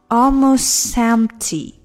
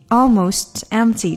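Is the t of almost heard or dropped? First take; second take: dropped; heard. First: The words are linked and the t disappears. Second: The t of almost is clearly pronounced.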